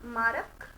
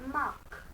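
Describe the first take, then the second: First: The R sound is pronounced after the vowel. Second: The R sound is silent after the vowel. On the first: The speaker calls it wrong. "जी नहीं" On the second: The speaker calls it right. "R silent हो जाएगा"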